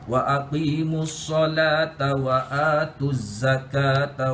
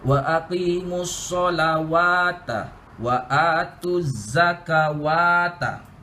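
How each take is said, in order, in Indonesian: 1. Tidak ada bunyi w yang terdengar di dalam kata-kata itu. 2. Ada bunyi w tambahan yang terdengar di dalam kata-kata itu. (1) "bukan disebut solawata tapi solat saja" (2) "kesilapan atau common mistake yang selalu dibaca"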